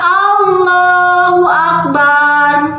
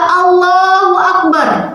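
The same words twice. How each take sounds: First: The vowel in the last syllable is long. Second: The vowel in the last syllable is short. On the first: It refers to a drum. The speaker calls it wrong. "dipanjangkan barnya" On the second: God is the greatest. The speaker calls it right. "Allah Maha Besar"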